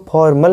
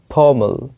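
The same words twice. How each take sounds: First: फॉर्मल with the R sounded; wrong pronunciation. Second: फॉर्मल with a silent R; correct pronunciation. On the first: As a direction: say फॉर्मल as "for-mal", R pronounced. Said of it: "इसको फॉर्मल नहीं पढ़ते हैं". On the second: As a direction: say फॉर्मल as "faw-mul", no R. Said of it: "correct उच्चारण होता है, ये होता है". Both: Shown as a demonstration.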